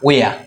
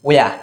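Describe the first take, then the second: The two takes are said the same way.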